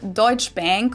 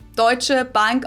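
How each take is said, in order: First: The name is said with an American accent. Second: The name is said with a German accent.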